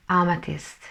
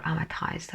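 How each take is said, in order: First: Amethyst with a short i, ending like "tist"; amethyst, short last vowel; first pronunciation. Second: Amethyst with a long i, ending like "iced"; amethyst, last syllable rhyming with "iced"; alternative pronunciation. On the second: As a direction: say amethyst as AH-muh-tyste. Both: Shown as a demonstration. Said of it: "how you pronounce it".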